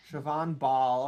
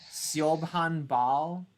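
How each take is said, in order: First: Siobhan said as "shuh-VON"; corrected Irish pronunciation. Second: Siobhan sounded out as spelt, "see-ob-han"; slow, tentative "SEE-ob-han" for Siobhan; misread Irish name. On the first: Host confirming the writer's name, Siobhan said as shuh-VON. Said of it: "Is this Siobhan?". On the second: Puzzled host reading a writer's name, Siobhan said as see-ob-han. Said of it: "Is this, like, an Irish name?". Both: Real, not acted.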